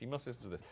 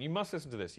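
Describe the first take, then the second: First: Softer echo. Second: Said in the usual way. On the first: Real, not acted. Host echoing the friend's words, softer. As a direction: say it again, under the breath.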